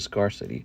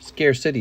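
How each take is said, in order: First: The first part sounds like 'scar'. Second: The first part sounds like 'scare'. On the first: "we normal people say" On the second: "is how it sounds"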